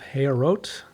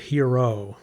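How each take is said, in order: First: The name is said without a French pronunciation. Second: The name is said with a French pronunciation. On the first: The speaker calls it right. "I think that's the correct pronunciation" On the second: The speaker calls it wrong. "so with a French pronunciation, but it's not French"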